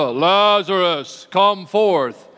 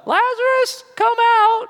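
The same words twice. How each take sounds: First: Drawn-out, booming call with authority; loud commanding summons. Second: Very high, thin squeal of a summons; squeaky feeble call. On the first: Preacher shows how Jesus called Lazarus from the tomb, loud and commanding. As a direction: summon him loudly, stretching the name. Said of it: "it was a loud voice". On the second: Preacher mocks how Jesus didn't call Lazarus, in a high squeal. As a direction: call it out in a silly high falsetto. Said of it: "I doubt it was a". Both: Shown as a demonstration.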